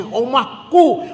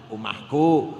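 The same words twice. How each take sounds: First: Said in the usual way. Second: Omahku low and quiet, held back; said softly. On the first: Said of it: "Jangan keras-keras". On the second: Shown as a demonstration. Preacher shows the congregation how to say omahku humbly, quietly. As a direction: drop the voice right down on omahku, not boasting. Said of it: "cek kecil-kecil, rendah-rendah".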